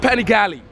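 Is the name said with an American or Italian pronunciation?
American. It is said with an American pronunciation. The speaker calls it wrong. "not Panigale. It's not an American brand"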